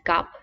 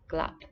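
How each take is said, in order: First: The L sound after the first consonant is dropped. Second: The L sound after the first consonant is pronounced. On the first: "sometimes you might hear this word pronounced as gap" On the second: "the very precise way of saying it is glap"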